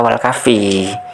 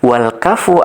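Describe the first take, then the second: First: The second word ends with an i vowel. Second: The second word ends with an u vowel. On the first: The speaker calls it wrong. "Jadi bukan dibaca wal kafi" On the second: The speaker calls it right. "Begitu mestinya"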